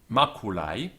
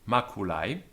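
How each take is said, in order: The two takes are said the same way.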